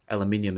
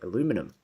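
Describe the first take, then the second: First: It is said the Australian way, five syllables. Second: It is said the American way, four syllables.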